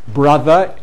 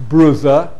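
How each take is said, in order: First: It is said in a southern English accent. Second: It is said in a northern English accent. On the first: "in the south of England" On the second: "in the north"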